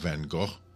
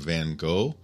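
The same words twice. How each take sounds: First: The name has a Dutch-style pronunciation. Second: The name has an American English pronunciation. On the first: "would be a little more accurate" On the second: "It's the American English pronunciation"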